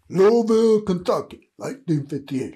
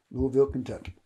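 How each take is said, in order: First: Louisville called out loud and high, Kentucky dropping away; proud hometown call-out. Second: Said in the usual way. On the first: Real, not acted. Speaker naming his birthplace to viewers, loud and proud. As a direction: belt out Louisville like a proud announcement.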